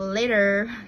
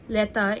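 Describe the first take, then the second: First: The vowel is a full gliding diphthong. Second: The vowel is a short, simple 'e' sound. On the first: "instead of later" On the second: "diphthong like E reduced to a, making the word letter"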